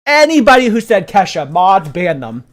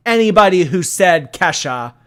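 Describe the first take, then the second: First: Very loud, high-pitched command; escalating indignant shout. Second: Loud, raised-pitch announcement; indignant call-out. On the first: Streamer ordering mods to ban the wrong guessers, shouting. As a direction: shout it harder, like passing sentence. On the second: Streamer calling out chat for naming [name], indignant. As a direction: call out the offenders loudly. Mock-scolding chat over song. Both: Real, not acted.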